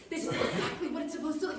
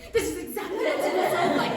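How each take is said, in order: First: Said in the usual way. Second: Higher, louder, fast little gnome; short gnome voice. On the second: Shown as a demonstration. Redoing the gnome's line higher because he's very short. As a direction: pitch it up for a tiny gnome. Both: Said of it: "I'm sorry, he's very short".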